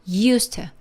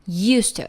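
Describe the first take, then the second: No difference in how they are said.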